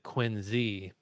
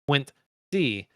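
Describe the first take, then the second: First: It is said the way Boston locals say it. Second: It is said with a clear 'Quint-C' sound. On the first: This is how a local says it. The speaker calls it right. "A Boston native would have pronounced it Quincy" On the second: This is how an outsider says it. The speaker calls it wrong. "pronounced Quint-C"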